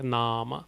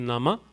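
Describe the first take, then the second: First: The first vowel is long, the second short. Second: Both vowels are short. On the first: "First A has a bar over it, second A doesn't have a bar over it" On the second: "If none of the A's had a bar, it would be"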